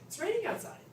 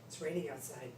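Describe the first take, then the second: First: It sounds happy and pleased. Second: It sounds frustrated or sad, disappointed.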